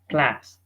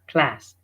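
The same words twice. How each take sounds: No difference in how they are said.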